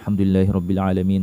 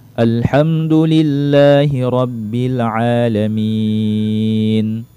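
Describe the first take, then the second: First: The words are recited quickly. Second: The words are recited slowly. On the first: "Boleh juga kita baca cepat seperti itu" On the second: "itu bacaan lambatnya"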